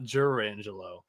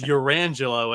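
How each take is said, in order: First: The name begins with a hard J sound. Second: The name begins with a soft H-like sound. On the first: The speaker calls it wrong. "and not Jurangelo" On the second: The speaker calls it right. "I also think it's Urangelo"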